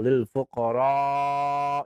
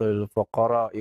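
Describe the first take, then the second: First: The final vowel of fuqara is lengthened. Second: The final vowel of fuqara is short. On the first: The speaker calls it right. "dipanjangkan lil fuqara" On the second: The speaker calls it wrong. "seorang membaca"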